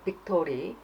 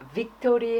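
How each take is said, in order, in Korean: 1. 이 단어는 B 소리로 시작해요. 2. 이 단어는 V 소리로 시작해요. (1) "틀릴 때가 많아요" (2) "빅토리 해야 되는데"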